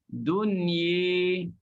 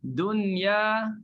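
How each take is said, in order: First: The final vowel is tilted toward e. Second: The final vowel is a plain open a. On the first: "tetap dibaca dengan imalah" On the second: "dia tulis dengan alif tu"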